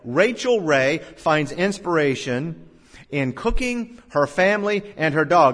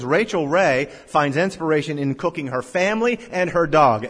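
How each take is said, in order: First: There are pauses between the listed items. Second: It runs on with no pauses between items.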